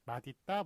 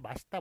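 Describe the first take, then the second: First: The second syllable begins with a d sound. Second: The second syllable begins with an s sound. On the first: "디귿이 뒤로 넘어가기 때문에 맛있다 멋있다가 원래 기본적으로 맞는 발음" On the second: "다 사람들이 맛있다 멋있다 예, 이런 식으로 그렇게 발음을 하다 보니까"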